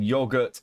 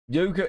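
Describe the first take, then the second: First: It is said the British way. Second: It is said the American way. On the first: "is common in British English" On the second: "is standard American English"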